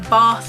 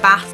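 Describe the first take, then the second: First: The vowel in bath is long and open. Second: The vowel in bath is short and flat. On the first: "rather than saying" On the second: "I tend to have flat A's, so I say"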